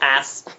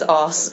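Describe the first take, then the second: First: It is said with a non-British pronunciation. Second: It is said with a British pronunciation. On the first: "and not ass" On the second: "she says ass"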